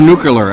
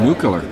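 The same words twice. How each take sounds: First: It is pronounced with a 'cular' ending instead. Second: It is pronounced with the standard 'clear' ending.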